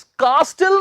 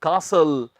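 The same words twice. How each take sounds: First: "कास्टल" with a sounded "t"; "कास्टल" as kaas-tal; wrong pronunciation. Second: "कासल" with silent "t"; "कासल", no t after the s; correct pronunciation. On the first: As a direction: hit the t in "कास्टल". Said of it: "नहीं कहना". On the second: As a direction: say "कासल" as kaa-sal. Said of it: "क्या कहना है?". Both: Shown as a demonstration.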